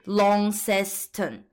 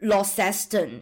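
First: The first syllable sounds like 'lon'. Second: The first syllable sounds like 'law'. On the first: The speaker calls it right. "但其实是Launceston 这样子" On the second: The speaker calls it wrong. "很多人就会发成Launceston，因为像比如说Laura 就是这个开头嘛"

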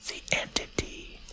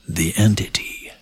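First: It is spoken softly and breathily, close to the microphone. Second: It is spoken in a put-on character voice. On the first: "Like an ASMR?" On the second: "You should say it in your Caleb voice"

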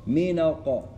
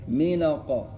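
No difference in how they are said.

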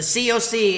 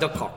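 First: It is spelled out as separate letters. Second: It is said as one single word. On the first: It is read as an abbreviation. The speaker calls it right. "There's a reason why there's a period between everything. It's an abbreviation" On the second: It is read as a rude word. The speaker calls it wrong. "as everybody so eloquently likes to enunciate it"

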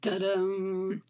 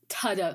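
First: The word begins with a d sound. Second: The word begins with a t sound. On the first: "it was always like da-dum" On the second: "if we're going to say it starts with a T, surely it's then ta-dum"

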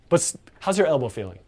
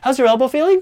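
First: The pitch falls at the end of the question. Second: The pitch rises at the end of the question. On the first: The speaker sounds confident and authoritative. The speaker calls it right. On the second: The speaker sounds unsure and lacks authority. The speaker calls it wrong.

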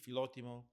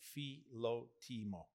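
First: The word is said quickly and smoothly. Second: The word is said slowly and carefully. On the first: "So if you say it quickly" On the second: "In a simple way"

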